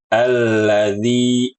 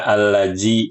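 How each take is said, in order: First: The middle consonant is a dh sound. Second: The middle consonant is a j sound. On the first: The speaker calls it right. "Harusnya alladzi" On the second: The speaker calls it wrong. "Atau diubah menjadi huruf jim"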